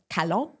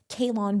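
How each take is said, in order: First: The name has a French pronunciation. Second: The name has a North American pronunciation. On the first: French listeners recognize the name. "how about Calon? And then, oh, all of a sudden, they know what I'm talking about" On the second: French listeners do not recognize the name. "we say Kalon when a very Amer- North American slash like, you know, European, not European accent"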